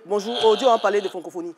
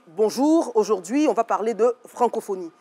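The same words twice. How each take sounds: First: It is relaxed, with sounds such as R dropped. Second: Every sound is carefully and clearly articulated. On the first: "comme un Ivoirien, comme je parle à la maison" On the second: "on fait l'effort d'articuler"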